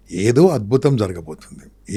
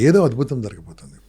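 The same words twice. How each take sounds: First: Slow, weighty delivery of ఏదో అద్భుతం జరగబోతుంది; slow emphatic. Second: Said in the usual way. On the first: Shown as a demonstration. Speaker tells the audience failure means something wonderful is coming, slowly.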